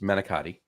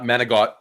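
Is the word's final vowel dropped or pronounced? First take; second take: pronounced; dropped. First: The word ends with its final vowel fully said. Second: The word ends clipped, without its final vowel. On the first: The speaker calls it right. "It's manicotti" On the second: The speaker calls it wrong. "It's not manigot"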